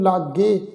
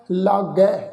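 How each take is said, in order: First: "ਲਾਗੇ" ending in a closed long e; closed final vowel. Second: "ਲਾਗੈ" ending in an open ai; open final vowel. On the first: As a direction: end "ਲਾਗੇ" on a narrow "ay" sound. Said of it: "ਇਸ ਢੰਗ ਨਾਲ ਉਚਾਰਨ ਨਹੀਂ ਕਰਨਾ". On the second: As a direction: end "ਲਾਗੈ" on a wide "eh" sound. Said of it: "ਇਹਨੂੰ ਲਾਗੇ ਇਸ ਢੰਗ ਨਾਲ ਉਚਾਰਨ ਨਹੀਂ". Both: Shown as a demonstration.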